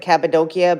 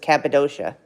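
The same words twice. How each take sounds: First: The name is said with a Turkish pronunciation. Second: The name is said with an American pronunciation. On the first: "The Turks, I think, pronounce it Cappadocia" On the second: "we pronounce it in the U S as Cappadocia"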